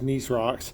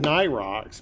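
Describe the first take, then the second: First: The first word ends with an s sound. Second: The first word ends without an s sound. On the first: "I've always pronounced it Nice" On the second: "some people said Nye rocks"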